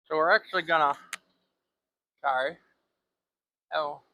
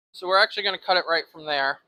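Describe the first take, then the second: First: Talking around a marker held in teeth; words muffled by a pen between teeth; marker in mouth. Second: Said in the usual way. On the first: Real, not acted. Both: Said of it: "a marker in my mouth".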